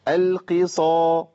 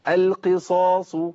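First: The emphatic consonant sounds light and weak. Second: The emphatic consonant sounds heavy and full. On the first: The speaker calls it wrong. "ايوه انا جبتها ضعيفه" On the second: The speaker calls it right. "الصاد مفخمه، تفخيم عالي"

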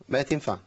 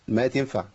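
No difference in how they are said.

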